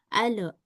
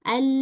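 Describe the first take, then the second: First: The L is released with a bounce. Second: The L flows smoothly without bounce. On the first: The speaker calls it wrong. "lamnya suka dibaca mantul" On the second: The speaker calls it right. "bukan ale tapi al"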